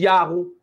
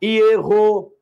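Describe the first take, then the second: First: Diz "Iarro" com I-A e R aspirado, como "Iá-rro"; "Iarro" pronunciado devagar, sílaba por sílaba; pronúncia Iarro. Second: Diz "Ierro" com E aberto e R aspirado, um pouco mais alto; "Ierro" destacado, como "Ié-rro"; pronúncia Ierro. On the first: (pronúncia "Iarro" como em "ia-rro") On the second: (pronúncia "Ierro" mais forte e marcada) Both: Shown as a demonstration. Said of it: "a pronúncia Iarro".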